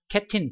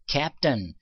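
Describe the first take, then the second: First: The last syllable has a clear 'i' vowel. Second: The last syllable has a weak 'uh' vowel. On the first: The speaker calls it wrong. "캡틴 발음이 틀린 거예요" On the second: The speaker calls it right. "이가 거꾸로 간 거는 어 소리 난단 말이에요"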